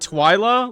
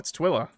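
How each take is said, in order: First: The first syllable sounds like 'twi' in Twilight. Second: The first syllable does not sound like Twilight. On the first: "Like Twilight?"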